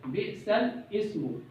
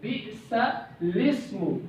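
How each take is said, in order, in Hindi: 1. शब्द 'ismu' अपने अलग स्वर के साथ अलग से शुरू होता है। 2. शब्द 'ismu' सीधे 'bi'sal' के बाद जुड़कर चलता है। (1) "आमतौर पे इसको इस तरह लोग पढ़ लेते हैं, ... ऐसा हरगिज नहीं है" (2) "इसको हम पढ़ेंगे बि'सलिस्मु"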